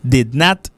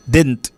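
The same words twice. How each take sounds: First: "Did not" as two separate words; uncontracted, clearly split "Did not"; two syllables. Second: "Didn't" squeezed to "dent"; contracted "Didn't" with the middle swallowed; one syllable. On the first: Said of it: "deux syllabes". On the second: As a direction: say "Didn't" as a single beat. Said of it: "une seule syllabe". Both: Shown as a demonstration.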